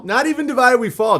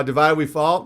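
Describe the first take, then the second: First: "divided" stressed, higher and louder; emphatic correction. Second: Said in the usual way. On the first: Shown as a demonstration. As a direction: push hard on "divided" to correct the saying.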